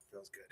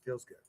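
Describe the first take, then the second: First: Much softer, almost under his breath; barely voiced echo of Feels good; fading murmur. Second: Said in the usual way. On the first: Real, not acted. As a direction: let it fade out to himself. Repeats phrase, fading away.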